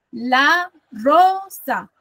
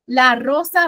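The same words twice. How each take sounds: First: "La rosa" very slow, syllable by syllable, RO strongest; stress on RO. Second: Said in the usual way. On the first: Shown as a demonstration. Teacher showing the iambic rhythm, second syllable of "La rosa" stressed. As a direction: separate "La rosa" into beats, leaning on the second. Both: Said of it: "Suena más fuerte la segunda".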